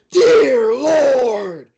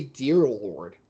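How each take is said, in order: First: High, very loud drawn-out shout; signature knockout call. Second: Said in the usual way. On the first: Retold or imitated. Commentator re-creating his favorite knockout call, full-voiced high shout. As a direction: belt it out like a stunned fight announcer. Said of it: "one of my favorite calls".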